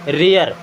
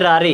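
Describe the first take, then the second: First: It sounds like 'rair' with an 'ay' vowel. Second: It sounds like 'raa-re' with a long 'aa'. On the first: The speaker calls it right. "क्या पढ़ेंगे? रेयर" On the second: The speaker calls it wrong. "अगर बारह खड़ी में देखेंगे ना तो इसे पढ़ेंगे रारे"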